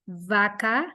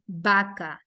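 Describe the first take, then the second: First: It begins with a buzzing lip-teeth V sound. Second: It begins with a B sound, lips closed. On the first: "They don't say it vaca" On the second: "they say it vaca"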